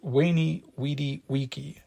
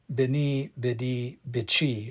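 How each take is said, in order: First: The phrase is said with classical Latin sounds. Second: The phrase is said in the familiar English way. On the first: The speaker calls it right. "in classical Latin, those words would have been pronounced" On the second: The speaker calls it wrong. "we have become used to repeating"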